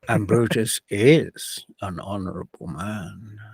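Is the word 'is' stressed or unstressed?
stressed. The word 'is' carries strong stress. The praise is sarcastic. The speaker calls it right. "the is falls on a strong beat"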